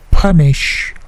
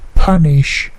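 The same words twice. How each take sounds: The two takes are said the same way.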